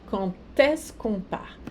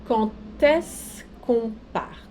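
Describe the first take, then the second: First: Said in the usual way. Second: Slow demo with "Quand est-ce" linked as "Quan-t-est-ce"; carefully slow French liaison, D of "Quand" said as T. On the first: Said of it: "o D se pronuncia como se fosse um T". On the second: Shown as a demonstration. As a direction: spell out the liaison slowly, the D of Quand sounding as T. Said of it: "vai se pronunciar como um T, um T de tatu".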